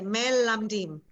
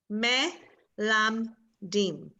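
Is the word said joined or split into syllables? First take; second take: joined; split. First: The syllables run together without pauses. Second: Each syllable is said separately with pauses. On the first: "all at once" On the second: "syllable after syllable"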